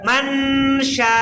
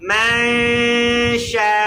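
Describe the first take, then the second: First: The n is pronounced clearly with the tongue. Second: The n is hidden in a nasal hum. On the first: The speaker calls it wrong. "এটা নুন ক্লিয়ার বুঝা গেছে। এটা ইজহার" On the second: The speaker calls it right. "দেখুন আমি বলি মাশা"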